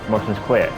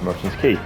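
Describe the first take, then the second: First: Quay is pronounced like kway. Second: Quay is pronounced like key. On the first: The speaker calls it wrong. "I didn't pronounce it as Key, I pronounced it as Quay" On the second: The speaker calls it right. "the correct pronunciation is Merchant's Quay"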